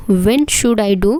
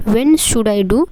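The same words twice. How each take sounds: The two takes are said the same way.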